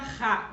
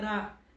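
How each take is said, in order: First: The r is a strong, forceful sound. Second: The r is a weak, light tap. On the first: The speaker calls it wrong. "Ele não vai ficar ra" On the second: The speaker calls it right. "aquele R ali vai ficar fraquinho"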